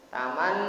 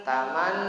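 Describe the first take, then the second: No difference in how they are said.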